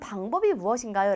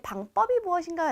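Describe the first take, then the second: First: The second syllable starts with a plain consonant. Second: The second syllable starts with a tense consonant. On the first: The speaker calls it right. "라고 하지" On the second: The speaker calls it wrong. "라고는 하지 않습니다"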